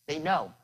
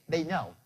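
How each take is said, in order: No difference in how they are said.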